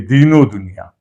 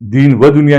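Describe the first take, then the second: First: An 'o' sound is joined onto the first word. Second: A separate 'va' stands between the two words. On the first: This follows the Persian rule used in Urdu. The speaker calls it right. "बल्कि दीनो दुनिया" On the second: This follows the Arabic rule. The speaker calls it wrong. "दीन व दुनिया नहीं"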